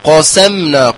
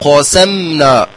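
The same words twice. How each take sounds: First: The opening q sound is heavy and emphatic. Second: The same.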